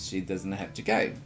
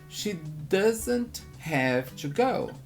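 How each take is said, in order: First: The words run together with reduced sounds. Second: Each word is said separately and fully. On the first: "Em vez de" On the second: "Ou você deve estar aprendendo desta forma"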